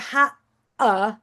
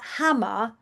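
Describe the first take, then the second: First: The middle sound is a glottal stop. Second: The middle sound is a clear m. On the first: The speaker calls it wrong. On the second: The speaker calls it right.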